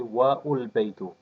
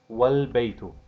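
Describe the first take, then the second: First: An extra U vowel comes before the L. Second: The W joins straight onto the L. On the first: The speaker calls it wrong. "they usually mistake this for a Dhamma" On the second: The speaker calls it right. "So we would say"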